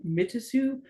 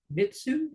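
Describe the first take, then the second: First: Mitasu in three even syllables, mi-ta-su; spelled-out Mitasu. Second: Mitsu said quickly as two syllables, mit-su; short Mitsu. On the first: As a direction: sound out every letter of Mitasu. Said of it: "I thought it was, like, Mitasu". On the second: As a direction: say it fast like Mitsu, the way Barry does. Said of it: "it just sounds like Mitsu". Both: Shown as a demonstration.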